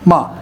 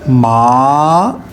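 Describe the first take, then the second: First: The pitch drops sharply from high to low. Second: The pitch rises from middle to high. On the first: "तलवार की तरह ऐसे यकदम ... फाइव से आ जाती है सीधा टू की तरफ या वन की तरफ" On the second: "rising tone ... थर्ड से ... कनेक्ट करूंगा फाइव से"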